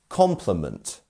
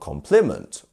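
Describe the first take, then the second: First: The stress is on the first syllable. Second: The stress is on a later syllable. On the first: The speaker calls it right. "It's our first syllable" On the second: The speaker calls it wrong. "It's not compliment"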